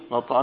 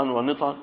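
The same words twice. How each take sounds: First: نطعا with an a after the nun, "nat'an"; fatha on the nun. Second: ونطعا with an i after the nun, "wa-nit'an"; kasra on the nun. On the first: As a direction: say نطعا as "NAT-'an", short a first. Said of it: "وفتحها". (نطعًا بفتح النون) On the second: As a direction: say ونطعا as "wa-NIT-'an", short i after the n. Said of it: "بكسر النون". (ونطعًا بكسر النون) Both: Shown as a demonstration.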